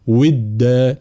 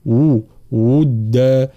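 First: "ودا" said as wida with an i vowel; kasra on waw. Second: "ودا" very slowly with rounded lips and a u vowel; rounded damma. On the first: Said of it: "لا نقول". ("ودا" بكسر الواو خطأ) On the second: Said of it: "هكذا". ("ودا" بضم الشفتين ببطء) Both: Shown as a demonstration.

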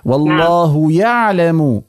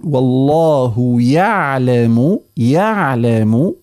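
First: Slow يعلم with no lengthened vowel; correct pronunciation. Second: Very slow يعلم with a clean short vowel; correct pronunciation. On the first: Teacher models يعلم for the caller, correct form. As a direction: say يعلم slowly and cleanly, no extra length. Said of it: "وليس والله يعلم". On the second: Teacher models the right يعلم, correct form. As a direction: say يعلم slowly, no extra length. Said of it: "الأولى أن نقول". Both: Shown as a demonstration.

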